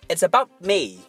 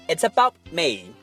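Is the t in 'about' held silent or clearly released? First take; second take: held silent; held silent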